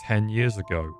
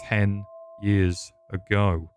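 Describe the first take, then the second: First: Said in the usual way. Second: "ten years ago" slowly, word by word; slow emphatic repeat. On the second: Acted. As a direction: stretch out "ten years ago" with pauses between words. Repeats it, drawn out.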